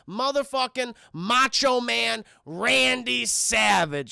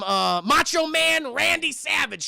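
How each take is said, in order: First: Slow, drawn-out ring announcer call; proudly announcing a wrestler; wrestling announcer intro. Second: Said in the usual way. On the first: Shown as a demonstration. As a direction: roll out the name like a ring introduction. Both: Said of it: "Let me put some respect on that name".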